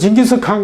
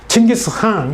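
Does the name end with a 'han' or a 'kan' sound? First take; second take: kan; han. First: The name ends with a 'kan' sound. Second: The name ends with a strong 'han' sound. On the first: The speaker calls it wrong. "몽골 사람들은 징기스칸 그러면 몰라요" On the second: The speaker calls it right. "한이란 발음을 강하게 내죠. 칭기스한 이렇게 내는 거죠"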